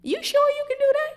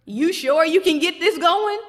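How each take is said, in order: First: Much higher, thin incredulous squeak; squeaky disbelief. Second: Loud, higher mocking doubt; incredulous challenge. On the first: Retold or imitated. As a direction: squeak out the doubt in mock disbelief. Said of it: "but then we saying". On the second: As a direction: throw the doubt back at her. Jesus mocking Martha's doubt.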